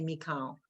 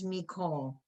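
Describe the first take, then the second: First: The second vowel sounds like 'ah'. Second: The second vowel sounds like 'oh'. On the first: The speaker calls it wrong. "Don't say Mikal" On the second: The speaker calls it right. "And this is Mikol"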